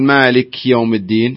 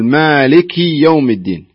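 First: The k is said without an i vowel. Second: The k is followed by an i vowel. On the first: The speaker calls it wrong. "لا لا لا تقول" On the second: The speaker calls it right. "لا قل ... اكسر الكاف"

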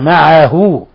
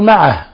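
First: The word ends in a short final vowel. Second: The word ends without any final vowel. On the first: The word runs on into what follows. "هذه الصلة صغرى، لم نقل معه معه وإنما قلنا معه" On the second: The reciter stops on this word. "لكن إذا وقفنا نقول معه"

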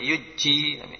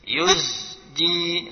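First: The z sound is dropped before the j. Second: A clear z sound comes before the j. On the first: The speaker calls it wrong. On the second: The speaker calls it right.

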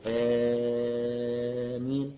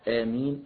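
First: The first vowel is held for six counts. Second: The first vowel is held for two counts. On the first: "ستة حركات" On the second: "حركتين"

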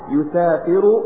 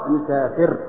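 First: The word ends with a short u vowel. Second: The word ends with no final vowel. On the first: The verb is in the indicative mood. "مرفوع" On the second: The verb is in the jussive mood. "إلى الجزم"

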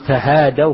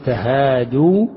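First: The word ends in an 'aw' diphthong. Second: The word ends in a long 'oo' vowel. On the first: It reports that a group exchanged gifts. The speaker calls it wrong. "كأنك تحكي عن جماعة" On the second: It is a command to exchange gifts. The speaker calls it right. "واو الجماعة ينبغي أن يسبقها الضم"

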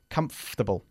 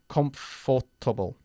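First: The middle 'for' syllable is dropped. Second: The middle 'for' syllable is fully pronounced. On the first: The speaker calls it right. "Omitimos la OR cuando lo decimos" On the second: The speaker calls it wrong. "We don't say comfortable"

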